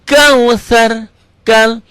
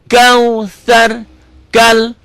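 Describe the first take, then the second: Both takes have the same delivery.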